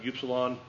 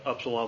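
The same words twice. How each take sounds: First: The word is pronounced in a careful, full way. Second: The word is pronounced in a looser, relaxed way. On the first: "So I pronounce it upsilon" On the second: "upsilon when I get lazy"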